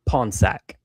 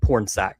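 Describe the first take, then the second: First: The first syllable is said without an r sound. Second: The first syllable is said with an r sound. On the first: This is how the man says his own name. The speaker calls it right. "but he pronounces it Ponsack" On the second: This is how the name is spelled. The speaker calls it wrong. "his name is spelled Pornsack"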